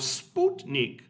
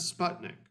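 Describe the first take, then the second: First: It is said with a Russian-style pronunciation. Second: It is said with an English-style pronunciation.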